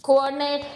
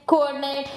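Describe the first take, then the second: No difference in how they are said.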